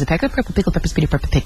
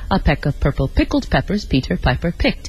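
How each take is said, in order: First: It is said extremely fast. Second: It is said at a moderate pace.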